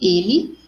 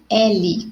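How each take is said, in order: First: The first vowel is a closed e sound. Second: The first vowel is an open e sound. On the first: It is the pronoun. "que tem o som mais fechado" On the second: It is the name of the letter. "que é o nome da letra, né? Letra L, o som mais aberto"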